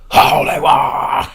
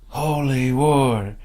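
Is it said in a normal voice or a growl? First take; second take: growl; normal. First: It is said in a death-metal growl. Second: It is said in a normal voice.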